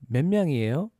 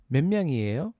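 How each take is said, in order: The two takes are said the same way.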